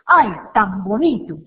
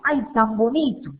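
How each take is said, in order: First: It sounds sarcastic and annoyed. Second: It sounds sincere and delighted.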